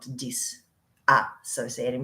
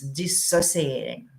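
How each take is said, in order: First: It has an extra 'a' syllable after 'dis'. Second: It has no extra syllable after 'dis'. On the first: The speaker calls it wrong. "not disassociating" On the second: The speaker calls it right. "So it's dissociating"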